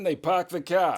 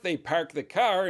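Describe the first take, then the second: First: It is said in a Boston accent. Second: It is said in a Northern US accent.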